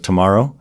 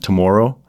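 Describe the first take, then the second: First: It is said with an American accent. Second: It is said with a Canadian accent.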